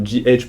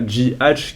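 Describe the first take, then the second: First: G H as English letters, "gee aitch"; corrected English pronunciation. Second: G H with the H said the French way, "ache"; French-accented slip. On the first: French YouTuber correcting his own English, English-style G H. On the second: French YouTuber misreading a supplement name, French-style G H. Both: Real, not acted. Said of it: "pardon, mon anglais, il est un peu défectueux".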